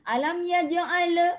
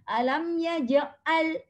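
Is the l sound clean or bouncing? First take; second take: bouncing; clean. First: The l ends with a bouncing echo. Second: The l ends cleanly without an echo. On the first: The speaker calls it wrong. "dia akan jadi macam ada kokolah" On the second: The speaker calls it right. "mana ada le le le kan? Tak ada kan?"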